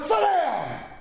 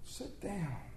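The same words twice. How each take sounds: First: It is said as a harsh command. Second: It is said as a gentle invitation.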